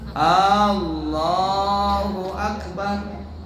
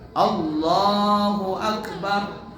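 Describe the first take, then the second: First: The first A vowel is drawn out long. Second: No vowel is drawn out long. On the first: The speaker calls it wrong. "Umpama A-nya dipanjangkan" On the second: The speaker calls it right. "mengucapkannya harus benar"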